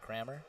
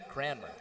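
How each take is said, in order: First: The name is said without an n sound. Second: The name is said with an n sound. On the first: The speaker calls it wrong. "What have I been saying?" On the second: The speaker calls it right. "There you go"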